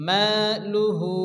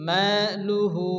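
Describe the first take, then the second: The two takes are said the same way.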